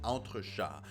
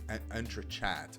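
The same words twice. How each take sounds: First: The word is said with a French pronunciation. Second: The word is said with an anglicized pronunciation. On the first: The speaker calls it right. "this isn't it. This entrechat" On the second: The speaker calls it wrong. "I've seen a lot of people pronounce it entrechat"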